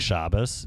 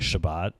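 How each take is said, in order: First: It ends with an Ashkenazi s sound. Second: It ends with a Sephardi t sound.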